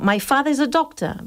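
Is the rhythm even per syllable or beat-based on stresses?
stress beats. English rhythm, timed from stress to stress.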